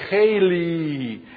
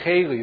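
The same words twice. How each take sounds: First: The word is stretched out and lengthened. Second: The word is said at normal, short length. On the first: The word is being emphasized. "and they extend it" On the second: The word is said without emphasis. "they don't say Haley"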